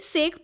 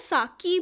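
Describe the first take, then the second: First: One syllable, ending in a 'k' sound. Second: Two syllables, ending in an 'ee' vowel. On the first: This is the common everyday reading. "हम लोग basically सेक pronounce करते हैं" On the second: Some people say it this way. "कुछ लोग इसको साकी भी बोलते हैं"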